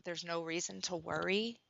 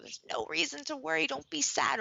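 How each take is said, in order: First: Said in the usual way. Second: Higher, bright reassuring parent voice, mock comforting; sing-song soothing parent. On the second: Parent brushing off a child's worry, higher sing-song.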